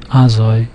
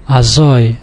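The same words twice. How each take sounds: First: Azoi stressed on the opening A; wrong first-syllable stress. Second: Azoi stressed on "zoi"; final-syllable stress. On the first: Teacher showing what you would wrongly assume, first-syllable stress. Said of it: "which you would assume from the". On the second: Teacher showing another exception, final-syllable stress. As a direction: land hard on the last syllable of Azoi. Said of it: "again the last syllable". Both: Shown as a demonstration.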